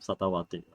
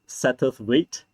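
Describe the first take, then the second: First: The name is said in a garbled, mangled way. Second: The name is said in its standard form. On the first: The speaker calls it wrong. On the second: The speaker calls it right.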